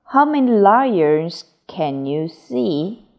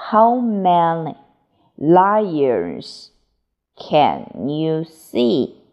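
First: Said in the usual way. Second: How many, lions, can you see, each chunk set apart by a pause; chunked phrases. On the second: Shown as a demonstration. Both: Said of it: "teacher models, then repeats slower".

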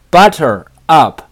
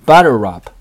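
First: "butter up" as two separate words; words separated. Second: "butter up" run together as one word; linked pronunciation. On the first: Teacher showing learners the phrase before linking, words separated. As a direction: say "butter", then "up", each on its own. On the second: Teacher showing learners how to link it, run together. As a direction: link the end of "butter" straight into "up". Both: Shown as a demonstration. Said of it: "可以连读成".

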